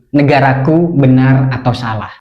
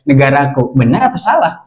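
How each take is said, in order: First: It is said with a statement intonation. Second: It is said with a question intonation. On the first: It asserts that the country is right or wrong. "Ini pernyataan teman-teman ya, bukan pertanyaan" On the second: It asks whether the country is right or wrong. "Kalau pertanyaan kan intonasinya juga"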